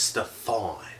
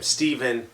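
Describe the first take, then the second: First: The middle consonant is an F sound. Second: The middle consonant is a V sound. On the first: The speaker calls it right. "It'd be pronounced with a F sound" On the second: The speaker calls it wrong. "they pronounce his name Steven"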